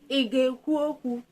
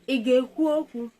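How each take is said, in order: Both takes have the same delivery.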